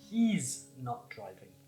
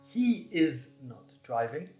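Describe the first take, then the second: First: The first words are joined into one contracted syllable. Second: The words are said fully and separately.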